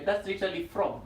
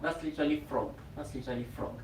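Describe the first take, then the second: First: Said in the usual way. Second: Each repeat softer until almost gone; fading to a murmur. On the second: Shown as a demonstration. Teacher repeating the pose name, fading softer. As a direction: let it die away into near silence.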